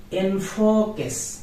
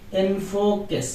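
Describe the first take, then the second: The two takes are said the same way.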